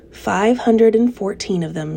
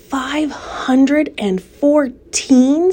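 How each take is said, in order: First: Said in the usual way. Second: Slow, drawn-out amazed question; astonished question. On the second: Acted. Pig amazed at spider's egg count, slow astonished question. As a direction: stretch out "Five hundred and fourteen?" in wonder.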